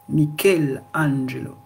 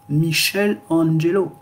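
First: The ch is said like k. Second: The ch is said like sh. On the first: The speaker calls it right. "lisez K" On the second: The speaker calls it wrong. "vous n'allez pas dire Michelangelo"

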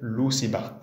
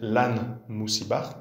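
First: The phrase is said in a shortened, contracted form. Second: The phrase is said in its full form. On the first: "c'est la forme contractée de lan moussibar" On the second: "au lieu de dire lan moussibar"

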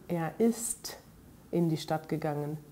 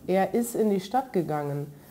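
First: The t at the end of ist is clearly said. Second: The t at the end of ist is barely heard. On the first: "mit T" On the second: "Man hört dabei kaum das T"

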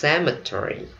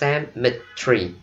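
First: American accent, ending like 'Terry', four syllables. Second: British accent, squeezed into three syllables. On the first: "Mình đọc theo giọng Mỹ, ... Mỹ đọc là Terry" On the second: "Còn người Anh họ đọc có ba âm thôi"

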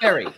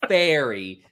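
First: The word is short and quick with a clipped vowel. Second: The word is drawn out with a long vowel. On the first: It means a boat. The speaker calls it right. "You have to be really, like, quick with it" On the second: It sounds like a magical fairy. The speaker calls it wrong. "It's not fairy"

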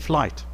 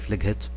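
First: No extra sound is voiced before the final t. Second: An extra sound is voiced before the final t. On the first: The speaker calls it right. "We say flight" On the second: The speaker calls it wrong. "We don't say flighet"

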